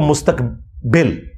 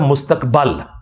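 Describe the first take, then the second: First: The last vowel is an 'i' sound. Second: The last vowel is an 'a' sound. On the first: The speaker calls it wrong. "ये हम उर्दू में जो कहते हैं" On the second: The speaker calls it right. "ये लफ्ज है मुस्तकबल, जबर है"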